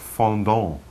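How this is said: It is pronounced the French way. "it would sound more like fondant in French"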